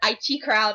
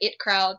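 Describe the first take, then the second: First: IT is spelled out as two letters. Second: IT is said as the single word it. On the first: "You could say it either way" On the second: "You could say it either way"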